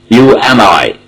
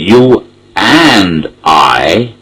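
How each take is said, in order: First: The word and has a short, unstressed vowel. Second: The word and has a long, stressed vowel. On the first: "there and is not emphasized, so it is and" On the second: "when it is emphasized, it is a long vowel"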